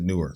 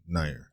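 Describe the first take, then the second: First: The name sounds like the word 'newer'. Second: The name sounds like 'nair'. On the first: This is how the reactor himself said the name. "I said newer" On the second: This is how the video's narrator said the name. "That's how he pronounced it"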